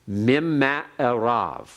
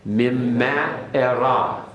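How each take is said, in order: No difference in how they are said.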